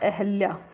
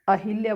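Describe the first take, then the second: First: It is said without an 'i' after 'ah'. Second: It is said with an 'i' after 'ah'. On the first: The speaker calls it right. "एक शब्द होता है अहल्या" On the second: The speaker calls it wrong. "अहिल्या बोल देते हैं, जो गलत होता है"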